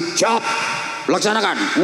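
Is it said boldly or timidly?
boldly. It is barked out boldly and loudly.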